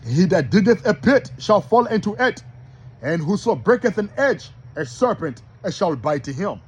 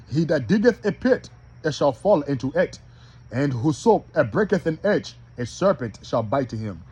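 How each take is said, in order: First: Verse opened louder and higher; first scripture reading. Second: Measured reading broken into short phrases; slow rereading. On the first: Preacher first reads Ecclesiastes to the brothers, declaimed. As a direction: declaim the verse without slowing down. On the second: Preacher rereads for brothers who are slow, measured. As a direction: take the verse piece by piece. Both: Shown as a demonstration. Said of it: "I'm gonna read that again slow".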